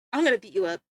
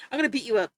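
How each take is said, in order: First: Lower, put-on tough voice, playfully menacing; mock tough-guy threat. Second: Said in the usual way. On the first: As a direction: growl it like a fake bully, half-joking.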